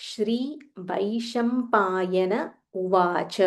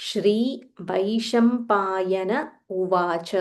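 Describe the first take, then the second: Both takes have the same delivery.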